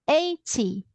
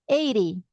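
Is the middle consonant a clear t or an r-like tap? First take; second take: clear t; r-like tap. First: The middle consonant is a clear t sound. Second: The middle consonant is an r-like tap sound.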